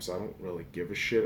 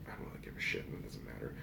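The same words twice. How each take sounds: First: Said in the usual way. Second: Breathy unvoiced whisper. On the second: Shown as a demonstration. Vlogger whispering his shrug to viewers. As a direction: drop to a whisper for the aside.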